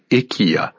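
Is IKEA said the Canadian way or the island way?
island. It is said the way island people say it. "heard people say IKEA"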